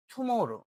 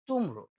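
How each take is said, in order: First: "টুমরো" with puffed T and drawn-out middle, ঠুমোরো; breathy T, three syllables in "টুমরো"; aspirated T. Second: Said in the usual way. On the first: Shown as a demonstration. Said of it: "কি বলতো". ("টুমরো"-র ট মহাপ্রাণ, মাঝে টান) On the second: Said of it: "টুমরো বলা যাবে".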